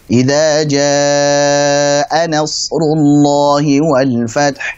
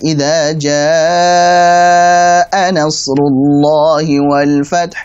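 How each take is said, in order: First: The vowel in jaa is held four beats. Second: The vowel in jaa is held six beats. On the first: The speaker calls it right. "dibaca wajib empat harokat" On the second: The speaker calls it wrong. "misalkan enam harokat"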